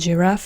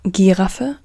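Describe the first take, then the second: First: It begins with a soft J sound. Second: It begins with a hard G sound. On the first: This is the English pronunciation. "it's like a J in English" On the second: This is the German pronunciation. "in German it's Giraffe, G"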